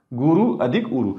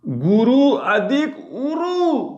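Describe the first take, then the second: First: Said in the usual way. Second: गुरु अधिक उरु stretched out slowly on a higher pitch, every syllable held long; slow drawn-out dictation. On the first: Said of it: "काय होईल सांगा बरं". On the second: Shown as a demonstration. Teacher to students writing the example, slow high drawn-out dictation. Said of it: "पहा बरं".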